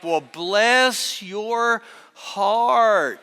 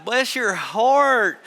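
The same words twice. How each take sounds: First: Very slow, drawn-out Southern "Well, bless your heart"; mock Southern sympathy, drawn way out; Southern drawl. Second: Slow, drawn-out Southern "Bless your heart"; imitating a Southern drawl, slow and sweet. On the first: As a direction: stretch it out like a Southern church lady. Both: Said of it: "That's how they say it in the South".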